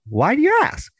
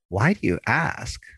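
First: It sounds warm and curious, celebrating the question. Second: It sounds disapproving or annoyed.

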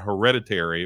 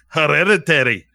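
First: It is said in the speaker's ordinary accent. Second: It is said in a Scottish accent.

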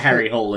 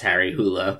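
First: The surname is said with one syllable, 'hole'. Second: The surname is said with two syllables, 'hoo-la'. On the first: This is how the film pronounced the name. "They pronounced it Harry Hole in the movie" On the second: This is the original pronunciation of the name. "it's actually pronounced Harry Hula"

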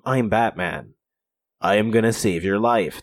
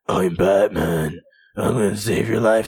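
First: The voice is deep and gruff but healthy. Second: The voice is hoarse and raspy like a smoker. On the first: This is how he sounded at first. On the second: Smoking has damaged his voice.

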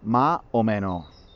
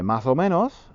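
First: The S sounds are dropped and vowels opened. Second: The final S sounds are pronounced clearly. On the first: "en Granada decimos más o menos" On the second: "para decir más o menos"

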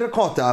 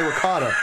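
First: The word is said with an Italian pronunciation. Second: The word is said with an American pronunciation. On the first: The listener is Italian. "I'd say ricotta if I'm talking to like an Italian guy" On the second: The listener is American. "So just say ricotta. He'll know what I'm trying to say"

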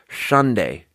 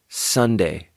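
First: The S is lisped, with the tongue too far forward. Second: The S is clear, without a lisp. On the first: The speaker calls it wrong. "that turns into a lisp where it's like Sunday. Then you sound like this" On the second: The speaker calls it right. "what we want is we want to be here. We want to be Sunday"

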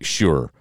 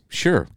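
First: It is said in a put-on deep voice. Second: It is said in a plain normal voice.

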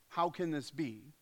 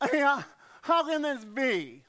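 First: It sounds like a curious, genuine question. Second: It sounds like a doubtful, skeptical question.

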